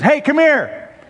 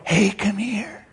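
First: The voice is raised and loud. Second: The voice is lowered and quiet. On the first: It is ordinary news. "You raise your voice. That's news" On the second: It is gossip shared in secret. "When you have to lower your voice, show something is up"

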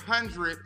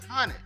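First: The R sound in the word is clearly pronounced. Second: The R sound in the word is dropped. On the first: The speaker calls it wrong. "he said 100" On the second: The speaker calls it right. "Let the R's go. It's just hunted"

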